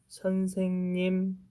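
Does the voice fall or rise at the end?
fall. It ends with a falling statement tune.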